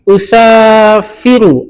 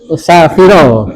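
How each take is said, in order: First: The final vowel is not an 'a' sound. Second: The final vowel is an 'a' sound. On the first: The speaker calls it wrong. "Ada yang salah Bapak Ibu?" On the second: The speaker calls it right. "harusnya pakai fat"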